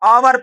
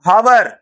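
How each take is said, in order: First: The word starts directly with a vowel. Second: The word starts with an h sound. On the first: The speaker calls it right. "आ का उच्चारण निकल रहा है" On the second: The speaker calls it wrong. "लेकिन इसको ध्यान से पढ़ो बेटा"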